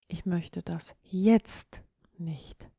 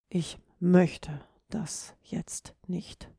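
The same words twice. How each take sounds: First: The stress falls on the word jetzt. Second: The stress falls on the word möchte. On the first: The speaker does not want it now, maybe later. "du möchtest es augenblicklich nicht" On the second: The speaker simply does not feel like it. "Ganz klar, du hast keine Lust"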